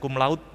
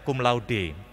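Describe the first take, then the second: First: The final e of laude is silent. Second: The final e of laude is pronounced. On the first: The speaker calls it wrong. "kita biasanya mengatakan" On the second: The speaker calls it right. "seperti membaca e, mirip tulisannya"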